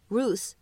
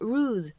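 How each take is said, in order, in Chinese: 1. 结尾是嘶嘶作响的 s 音。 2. 结尾是嗡嗡振动的 z 音。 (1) "末尾的z 你也可以读成s，所以这个单词呢它也可以读成ruse 也是对的" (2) "末尾的z"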